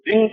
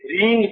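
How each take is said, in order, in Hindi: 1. स्वर लघु बोला गया है। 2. स्वर दीर्घ बोला गया है। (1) "रिंग शब्द नहीं है, लघु" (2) "रींग शब्द है, दीर्घ है"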